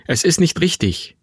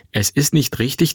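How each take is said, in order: First: Higher-pitched, pleading protest; troubled objection. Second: Mother's insistent counter; firm retort. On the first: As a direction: object with uneasy conscience. Son objects to the deceit. (gequält widersprechend) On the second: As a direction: throw the words back with conviction. Mother turns his words back. (bestimmt entgegnend) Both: Acted.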